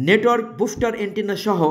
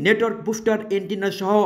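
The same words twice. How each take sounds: The two takes are said the same way.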